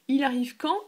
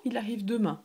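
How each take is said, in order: First: Quand lifted higher and louder; rising question. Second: Said in the usual way. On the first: Shown as a demonstration. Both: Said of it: "You say".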